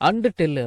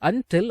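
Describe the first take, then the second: First: The word 'and' is fully pronounced. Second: The word 'and' is reduced and linked. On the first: The speaker calls it wrong. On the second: The speaker calls it right.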